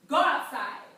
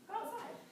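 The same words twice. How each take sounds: First: It sounds like a commanding order. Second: It sounds like a gentle suggestion.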